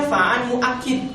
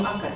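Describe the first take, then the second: First: "muakkid" with an i in the last syllable; corrected vowel reading. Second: "muakkad" with an a in the last syllable; rejected vowel reading. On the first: Teacher correcting his own reading for students, "muakkid" with final i. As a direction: say "muakkid", ending in -kid. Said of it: "harusnya fa'an muakkid". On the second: Teacher showing students the reading to avoid, "muakkad" with final a. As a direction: say "muakkad", ending in -kad. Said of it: "bukan muakkad ya". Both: Shown as a demonstration.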